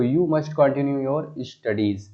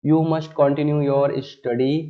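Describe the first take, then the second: First: The corrected sentence read slowly; slow dictation of the corrected version. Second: The wrong sentence read slowly and loudly; slow dictation of the wrong version. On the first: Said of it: "okay, तो". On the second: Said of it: "studies". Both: Shown as a demonstration.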